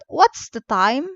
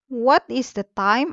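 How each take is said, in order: First: 'What is' is shortened into one syllable. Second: 'What is' is said as two full words.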